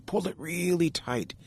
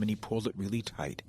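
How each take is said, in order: First: "really" pushed high, strained as if tugging hard; straining effort. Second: Said in the usual way. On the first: A narrator's reading. Beaver cinching his cedar belt, voice strained with effort. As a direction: squeeze the words like cinching a belt.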